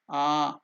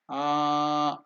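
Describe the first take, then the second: First: The vowel is held for two beats. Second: The vowel is held for three or more beats. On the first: "two unit of time, it is Dirgha" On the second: "if you take more unit of time, it is A, that is Pluta"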